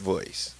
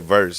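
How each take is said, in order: First: The word is said with an 'oy' vowel. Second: The word is said with a plain 'er' vowel. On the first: "That's how he used to talk" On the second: "he had a way that he said verse"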